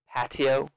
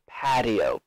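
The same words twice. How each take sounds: First: The middle consonant sounds like a T. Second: The middle consonant sounds like a D. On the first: "You can also say it with a T sound" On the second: "I say this T as a D sound"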